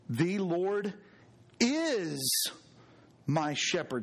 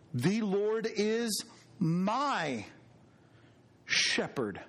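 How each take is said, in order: First: The word is carries the main stress. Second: The word my carries the main stress. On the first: He is the shepherd now, in the present. "Something to be said about that present tense" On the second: He is personally the speaker's own shepherd. "Doesn't that tell us something about God being personal?"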